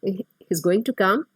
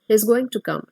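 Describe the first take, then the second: First: The voice rises at the end. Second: The voice falls at the end.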